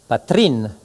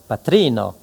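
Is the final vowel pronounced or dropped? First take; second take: dropped; pronounced. First: The final vowel o is dropped. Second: The final vowel o is pronounced. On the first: It is a poetic shortened form. "on peut supprimer ... la finale O du substantif" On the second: It is the ordinary full form. "pour patrino"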